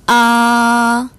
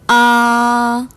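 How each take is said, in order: First: The pitch stays high, long and flat. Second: The pitch stays high, long and flat.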